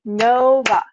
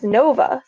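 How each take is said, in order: First: Nova split into two even beats, No-va; syllable by syllable. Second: Said in the usual way. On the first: Shown as a demonstration. Teacher demonstrating with her cat's name, Nova syllable by syllable. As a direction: clap out Nova, both syllables stretched. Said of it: "She has two syllables". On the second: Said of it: "so I would say Nova".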